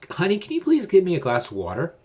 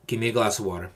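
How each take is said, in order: First: Pleading request. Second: Firm, even command; plain calm order. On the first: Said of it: "Don't say". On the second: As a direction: state it simply as an order. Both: Shown as a demonstration.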